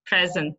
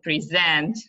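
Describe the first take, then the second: First: "Present" as the noun, PREZ-ent; first-syllable stress. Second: "present" as the verb, pre-ZENT; last-syllable stress. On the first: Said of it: "on the first syllable". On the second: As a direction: lean on the end of "present". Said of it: "The stress is on the last". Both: Shown as a demonstration.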